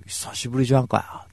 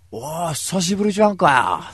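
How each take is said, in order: First: A touch of a rough tomboy greeting; lightly voiced tomboy. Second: A hint of a loud, rough tomboy greeting; hearty tomboy greeting. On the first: Megumi's greeting again, lightly acted. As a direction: toss off the hello like a rough tomboy. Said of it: "あかねちゃんみたいなさ". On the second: Megumi greeting him loudly after three months. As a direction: slap him on the back with words. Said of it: "本当にこういう風に喋るんだからね".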